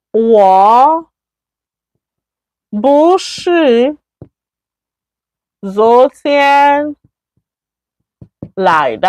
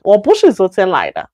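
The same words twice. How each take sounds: First: Word by word with pauses, 不是 lifted; slow model sentence. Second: Fluent run-through. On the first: Teacher showing the negative form, slow and separated. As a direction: dictate the negative slowly, one word at a time. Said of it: "That, I didn't come yesterday". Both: Shown as a demonstration.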